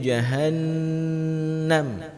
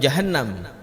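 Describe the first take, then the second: First: The doubled n is held long and nasal. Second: The doubled n is said short. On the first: The speaker calls it right. "nunnya bertasydid, maka harus dibaca lebih lama" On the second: The speaker calls it wrong. "urang kadang bengeh jahannam gekeun"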